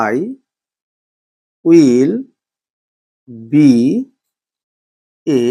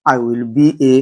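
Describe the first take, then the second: First: Slow dictation, each word set apart; long pauses between each word. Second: Said in the usual way. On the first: Shown as a demonstration. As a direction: spell the sentence out one slow word at a time. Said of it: "teacher dictates word by word". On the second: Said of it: "teacher says sentence joined".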